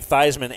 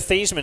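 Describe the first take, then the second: First: The name rhymes with Heisman. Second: The name does not rhyme with Heisman. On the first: This pronunciation was adopted for an award campaign. "Theismann as in Heisman" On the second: This is the name's original pronunciation. "that's how Joe Theismann pronounced his name up until he was in college"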